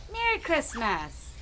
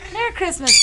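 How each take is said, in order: First: Soft coaxing. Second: Said in the usual way. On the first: Shown as a demonstration. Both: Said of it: "can you say Merry Christmas?".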